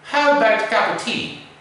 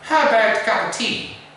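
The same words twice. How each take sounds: First: The small words are reduced to schwa. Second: The same.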